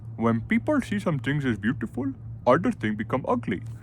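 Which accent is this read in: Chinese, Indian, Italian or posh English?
Indian. It is read in an Indian accent. "I don't know Indian"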